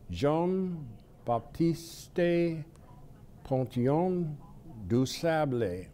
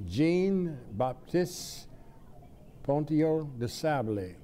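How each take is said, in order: First: The name is pronounced with French sounds. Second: The name is pronounced with English sounds. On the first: "I'll try it in French" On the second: "if we use the English pronunciation"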